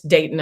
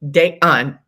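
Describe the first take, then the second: First: The second syllable has no added 'u' vowel. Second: The second syllable has an added 'u' vowel. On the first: The speaker calls it right. "it's Dayton" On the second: The speaker calls it wrong. "there's no U in Dayton"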